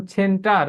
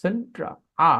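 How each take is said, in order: First: "সেন্টার" with the final r sounded; r-ful center. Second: "সেন্ট্রা" ending on open aa, r dropped; British center. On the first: Teacher showing what to avoid, sounded r. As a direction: close "সেন্টার" on a clear r. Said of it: "সেন্টার না বলে কি বলতে হয়?". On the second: Teacher modelling British speech, silent final r. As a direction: finish "সেন্ট্রা" on a bare vowel. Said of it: "ব্রিটিশরা বলে সেন্ট্রা". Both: Shown as a demonstration.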